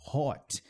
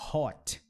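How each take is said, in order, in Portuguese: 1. A vogal é um som de 'oh' arredondado. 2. A vogal é um som de 'oh' arredondado.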